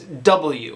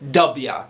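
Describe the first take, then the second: First: It is said as the full letter name. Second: It is said as the shortened form 'Dubya'. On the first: "like the letter W" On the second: "it's supposed to be pronounced as W"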